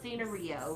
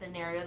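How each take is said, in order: First: It is said Korean-style, sounding like 'Sanrio'. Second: It is said with the standard English vowels. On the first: "They call it scenario, like Sanrio" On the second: "they don't pronounce it scenario"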